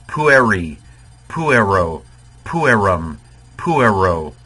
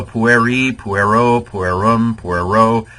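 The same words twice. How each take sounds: First: Pueri, puero, puerum, puero, each stressed on PU and falling away. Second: Pueri, puero, puerum, puero run together, first syllable not punched; uncertain pronunciation. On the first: Shown as a demonstration. Teacher repronouncing for students, PU-eri, PU-ero, PU-erum, PU-ero. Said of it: "the accent should be on the U". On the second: Real, not acted. Teacher running down the endings, pueri to puero without clear first-syllable stress. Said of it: "probably not pronouncing it right".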